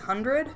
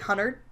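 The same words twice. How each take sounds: First: The word is said with every sound clearly pronounced. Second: The word is said quickly with sounds reduced. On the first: The speaker is paying attention to their speech. "if I'm noticing it and I'm enunciating, I I do say hundred" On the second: The speaker is talking without thinking about it. "if I'm just like talking, I say I say hundred"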